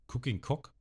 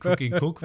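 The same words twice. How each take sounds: First: "Cooking Cock" with the last word said as "Cock", a bit higher; slip of the tongue. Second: "Cooking Cook" said correctly with "Cook", laughing and louder; laughing correction. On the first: Podcaster misreads the cook's forehead tattoo, "Cooking Cock" slip. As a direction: stumble into "Cooking Cock" by mistake. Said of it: "Cooking Cook meine ich natürlich". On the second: Podcaster corrects his slip for the co-host, laughing "Cooking Cook". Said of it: "meine ich natürlich". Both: Shown as a demonstration.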